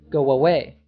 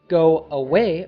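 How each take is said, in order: First: A W sound links the two words together. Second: The two words are said without an added W sound.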